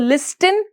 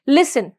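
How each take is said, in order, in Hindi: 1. S के बाद T sound बोला जाता है। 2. S के बाद कोई T साउंड नहीं बोला जाता है। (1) "हम इसको लिस्टन नहीं बोल के" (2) "क्या बोलेंगे, लिसन"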